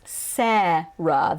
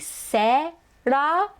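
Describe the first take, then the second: First: The name is said with American English vowels. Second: The name is said with Japanese-style vowels. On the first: "in American English, it is Sarah" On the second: "in Japanese, a closer pronunciation would be Sarah"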